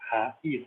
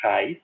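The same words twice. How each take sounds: First: "raiz" in two syllables, ra-IZ; separated vowels. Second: "raiz" as one joined syllable, RAIS; wrong diphthong. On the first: Teacher showing the hiatus, "raiz" split as ra-IZ. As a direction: hold a apart from stressed i in "raiz", ra-IZ. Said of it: "tá separado". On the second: Teacher contrasting with muito, "raiz" wrongly joined as RAIS. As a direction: glide the a and i of "raiz" together, RAIS. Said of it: "não tá". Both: Shown as a demonstration.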